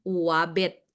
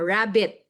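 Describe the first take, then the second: First: The word begins with a W sound. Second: The word begins with an R sound.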